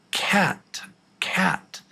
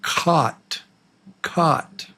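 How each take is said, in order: First: "Cat" with a wide flat front "a", high and soft; soft high "Cat" with the short A; short A demo. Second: "caught" with an open back "ah", like "cot"; "caught" said with an "ah" vowel, not "cat"; short O demo. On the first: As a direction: spread the lips on "Cat". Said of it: "You can almost tell by my mouth". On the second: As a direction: drop the jaw on "caught". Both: Shown as a demonstration.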